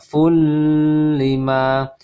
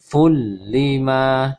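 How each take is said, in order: First: The n is held with a nasal hum. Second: The n merges into l with no nasal hum. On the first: The speaker calls it wrong. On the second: The speaker calls it right. "jadi tidak ditahan"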